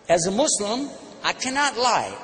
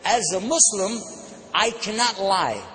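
First: Higher, with cannot stressed; repeated with emphasis. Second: Slow, deliberate as a Muslim, I cannot lie; measured demo. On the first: Preacher repeating the line for the crowd, emphatic. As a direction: lean on cannot. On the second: Preacher modelling the answer for listeners, deliberate. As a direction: spell it out slowly for the crowd. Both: Shown as a demonstration. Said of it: "say this".

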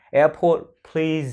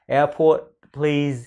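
First: Airport with breathy p; aspirated airport. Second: Airport with no puff on p; unaspirated airport. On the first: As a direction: push air on the p of airport. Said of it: "Âm thờ có rồi, chặn hơi đó". (airport bật hơi âm p) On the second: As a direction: say airport flat, no aspiration. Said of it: "Chứ không là airport". (airport không bật hơi) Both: Shown as a demonstration.

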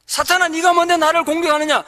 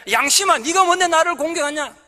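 First: Louder, high rebuke of Satan; rebuking Satan with a bold shout; defiant shout. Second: Loud, high challenge to conscience; defiant shout. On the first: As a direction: punch 네가 and cry it out. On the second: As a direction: stress 네가 and throw it back hard. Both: Shown as a demonstration. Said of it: "그렇게 외치십시오".

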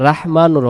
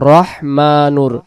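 First: রাহমানুর with a long open "raa" start; the mistake: রাহমানুর drawn as raah; wrong pronunciation. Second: রহমানুর with a short first vowel, roh-; correct pronunciation. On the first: Teacher showing students the wrong form: রাহমানুর. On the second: Teacher modelling the right form: রহমানুর. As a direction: say it roh-ma-nur. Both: Shown as a demonstration. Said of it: "রাহমানুর হবে না".

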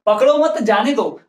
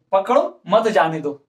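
First: Slow पकड़ो मत, break before जाने दो; group पकड़ो with मत, then जाने दो; pause after मत. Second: Slow, पकड़ो alone, then मत जाने दो; pause after पकड़ो. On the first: Teacher recalling the first sentence, pause after मत. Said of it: "पहले सेंटेंस में क्या बोल रहा था". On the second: Teacher contrasting the two sentences, pause after पकड़ो. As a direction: stop after पकड़ो, run मत जाने दो together. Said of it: "अब क्या बोल रहे हैं". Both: Shown as a demonstration.

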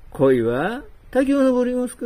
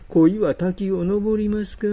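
First: 恋は滝を登りますか said again louder and higher, pressing on を; insistent repeat. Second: Said in the usual way. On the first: Shown as a demonstration. Man pressing the old man on his carp answer, louder. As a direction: press the question 恋は滝を登りますか home. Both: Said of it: "恋は滝を登りますかって。".

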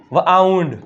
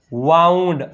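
First: વાઉન્ડ as "v-aaund", V apart from AU; split sounding-out. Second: વાઉન્ડ joined up as one syllable; blended word. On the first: Teacher showing pupils the AU sound, વાઉન્ડ split as "v-aaund". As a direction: break વાઉન્ડ after the first consonant. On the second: Teacher blending for pupils, વાઉન્ડ as one joined word. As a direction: run the first sound straight into AU in વાઉન્ડ. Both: Shown as a demonstration. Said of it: "શું થાય?".

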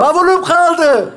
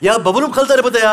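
First: Very high, drawn-out yell; stretched, high-pitched call; shouting. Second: Half-hearted raised complaint; weak attempt at calling out; lying-down shout. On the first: Acted. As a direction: yell slowly to someone far away. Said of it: "Ulan bağırsana". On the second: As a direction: shout it feebly while lying down. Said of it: "yatık bağırıyorsun".

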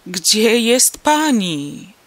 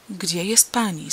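First: Very loud, very slow despairing shout; desperate cry. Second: Worried question. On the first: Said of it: "krzyknął rozpaczliwie". (rozpaczliwy, przeciągły krzyk) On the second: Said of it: "zapytał zaniepokojony". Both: A narrator's reading.

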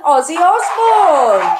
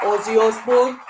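First: High, loud, drawn-out announcement; excited reveal. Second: Badly faked Birmingham accent; terrible Birmingham accent. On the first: Real, not acted. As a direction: shout the name out slowly like a big reveal. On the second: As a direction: have a jokey go at a Birmingham accent. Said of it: "that was my Birmingham accent".

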